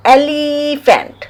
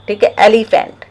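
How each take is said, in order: First: एलिफेंट said slowly, the opening ए drawn out and higher; slow vowel demo. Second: Said in the usual way. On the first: Shown as a demonstration. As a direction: stretch एलिफेंट so the first vowel ए rings out. (एलिफेंट को धीरे, शुरू का ए खींचकर बोलें) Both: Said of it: "ई क्या है?".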